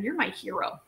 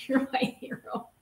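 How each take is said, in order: First: Said in the usual way. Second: Laughing. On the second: Real, not acted. Repeat with laughter.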